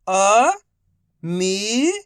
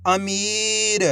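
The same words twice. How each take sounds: First: Each syllable slowly held, first one rising. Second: Whole word in one go, vowels held; syllables joined. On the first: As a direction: break the word into long, separate syllables. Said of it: "एक अक्षर का उच्चारण करके". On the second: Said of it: "तो मिलके बन जाएगा". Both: Shown as a demonstration.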